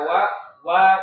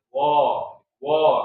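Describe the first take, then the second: First: The vowel is thin and light. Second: The vowel is thick and rounded. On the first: The speaker calls it right. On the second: The speaker calls it wrong.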